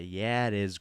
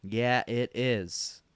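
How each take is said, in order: First: Said in the usual way. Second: Slow, stretched-out assurance; drawn-out confirmation. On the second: Acted. Reassuring amazed Grandma about the microwave, drawn out. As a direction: draw each word right out.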